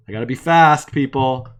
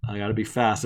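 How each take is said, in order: First: Louder, urgent and hurried; loud urgent call. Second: Said in the usual way. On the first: Real, not acted. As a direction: call it out like a race. Rushing, calling out to viewers.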